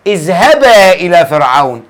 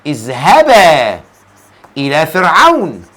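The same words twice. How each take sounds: First: Said in the usual way. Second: Low, stretched اذهبا with a long final alef; slow word-by-word recitation; drawn-out repeat. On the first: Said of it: "يقول الله عز وجل". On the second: Shown as a demonstration. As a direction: hold the end of اذهبا, then pause. Repeats verse slowly to show ending.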